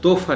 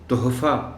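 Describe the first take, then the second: First: The h sound in the middle is dropped. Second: The h sound in the middle is clearly pronounced. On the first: The speaker calls it wrong. "ये लफ्ज़ तोहफ़ा नहीं हो सकता" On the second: The speaker calls it right. "इसको तोहफ़ा बोलना है"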